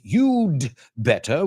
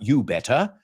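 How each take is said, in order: First: The d sound before better is pronounced. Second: The d sound before better is dropped. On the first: The speaker calls it right. "It's you'd better, which comes from you had better" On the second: The speaker calls it wrong. "technically it's incorrect. It's not you better"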